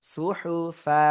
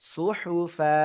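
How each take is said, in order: No difference in how they are said.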